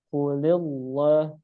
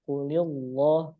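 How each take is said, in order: The two takes are said the same way.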